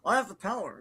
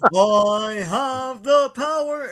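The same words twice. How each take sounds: First: The phrase is said quickly and hurriedly. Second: The phrase is said slowly and deliberately. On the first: The speaker calls it wrong. "he said it too quickly" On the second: The speaker calls it right. "It should be like"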